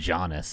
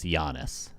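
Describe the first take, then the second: First: It begins with a hard J sound. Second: It begins with a soft Y sound. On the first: The speaker calls it wrong. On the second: The speaker calls it right.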